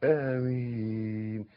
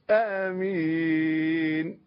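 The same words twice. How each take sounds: First: Lower, gentler "آمين" with a measured long vowel; correct amen. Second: "آمين" dragged very long at full voice; overstretched amen. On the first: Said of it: "لا". ("آمين" بصوت هادي ومد مضبوط) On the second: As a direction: chant "آمين" with long held vowels. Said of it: "مش آمين". ("آمين" ممدودة زيادة بصوت عالي) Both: Shown as a demonstration.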